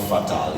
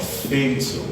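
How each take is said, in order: First: The first vowel is not an 'ay' sound. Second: The first vowel is an 'ay' sound. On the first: The speaker calls it wrong. "is not fatal" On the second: The speaker calls it right. "it's called fatal"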